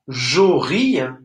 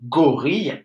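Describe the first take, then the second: First: The word begins with a soft J sound. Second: The word begins with a hard G sound. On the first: It is not a real word. The speaker calls it wrong. "ça ne veut rien dire" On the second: It is a known word. The speaker calls it right. "là le G, il fait bien le son G"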